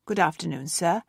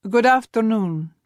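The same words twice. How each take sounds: First: A hint of a clipped-back bank clerk, softer; clerk's reply. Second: Put-on lightly Russian-accented greeting, a bit louder. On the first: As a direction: clerk answering a foreigner, a touch cooler. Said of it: "The woman's smile flickered". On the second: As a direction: Zivone greeting the bank clerk with a Russian accent. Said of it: "If only he could speak without an accent". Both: A narrator's reading.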